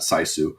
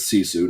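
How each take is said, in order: First: The first syllable sounds like 'sigh'. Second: The first syllable sounds like 'see'. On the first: The speaker calls it wrong. "not Saisu" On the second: The speaker calls it right. "it is Sisu"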